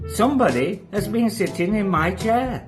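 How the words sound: The voice is quiet and gentle. "in a quiet, gentle voice"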